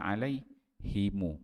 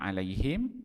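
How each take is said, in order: First: The final m is followed by a u vowel. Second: The final m is closed with no vowel. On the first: "iskan wasilah mim mim jamak" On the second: "Dia boleh baca dengan mati"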